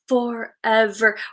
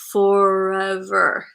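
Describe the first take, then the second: First: It is said in a normal voice. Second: It is said in an odd, movie-like voice.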